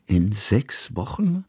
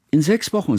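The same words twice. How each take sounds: First: Slow echo, "Wochen" rising into a question; questioning repeat. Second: High, eager interjection; chiming in. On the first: Kusmin repeats what Hanaka said, "Wochen" as slow question. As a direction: draw out "In sechs Wochen", lifting the end in doubt. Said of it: "wiederholte Kusmin". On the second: Hanaka breaks in on the adults, chiming in. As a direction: chip in high with a falling end. Child chimes in with date. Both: A narrator's reading.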